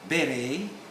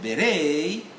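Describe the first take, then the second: First: The stress is on the first syllable. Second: The stress is on the second syllable. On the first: This is the British pronunciation. "Beret in, in, in the U K" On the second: This is the American pronunciation. "beret in, the, in America"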